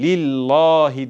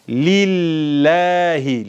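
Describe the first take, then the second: First: The L is heavy and thick. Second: The L is light and thin. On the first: The speaker calls it wrong. "lillahi diye okunmaz artık" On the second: The speaker calls it right. "Lam harfi esreli gelmiş"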